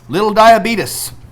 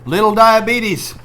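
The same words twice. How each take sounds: First: It is said in an Oklahoma dialect. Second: It is said in the speaker's ordinary accent.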